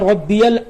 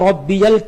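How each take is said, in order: The two takes are said the same way.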